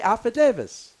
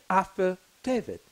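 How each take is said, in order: First: The word has a colloquial local pronunciation. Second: The word has its standard formal pronunciation. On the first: "We say affidavits. But an affidavit is colloquial" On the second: "we don't say affidavit"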